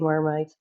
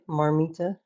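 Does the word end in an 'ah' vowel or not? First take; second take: no vowel; ah vowel. First: The word ends without an added vowel. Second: The word ends with an added 'ah' vowel. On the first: This is how many other Dutch people say it. "a lot of Dutchies they actually say marmite" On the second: This is how the speaker's family said it. "we call it marmita because that's the the Dutch uh, how you say it"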